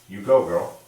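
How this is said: It is said flat and even.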